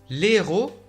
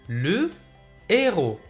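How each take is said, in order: First: The article's vowel is dropped and linked to héros. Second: The article's vowel is kept, with no linking. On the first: The speaker calls it wrong. "لا نقول" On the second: The speaker calls it right. "بل نقول"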